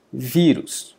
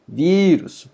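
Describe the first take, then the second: First: Said in the usual way. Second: VÍrus, first syllable higher and stretched; stress on penultimate. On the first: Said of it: "é pronunciada com mais força". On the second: Shown as a demonstration. Teacher showing the strong syllable, vírus stressed on "ví". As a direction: lift and lengthen the "ví" of vírus. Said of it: "É pronunciado com mais força".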